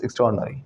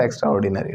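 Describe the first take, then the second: First: "extraordinary" as ik-STROR-nuh-ree, falling; "extraordinary" shortened, stressed on STROR; corrected pronunciation. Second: "extraordinary" as extra-or-di-naa-ree; "extraordinary" with every syllable sounded out; wrong pronunciation. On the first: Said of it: "it's extraordinary". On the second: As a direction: say "extraordinary" like extra plus ordinary. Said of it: "It's not extraordinary". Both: Shown as a demonstration.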